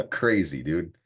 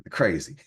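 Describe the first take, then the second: First: Laughing. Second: Said in the usual way. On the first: Real, not acted. Laughing at own miscount.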